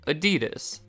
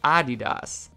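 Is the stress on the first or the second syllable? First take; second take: second; first. First: The stress falls on the second syllable. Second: The stress falls on the first syllable. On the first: This is the American pronunciation. "A little emphasis on that second syllable" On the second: This is the European pronunciation. "moving the emphasis to the first syllable"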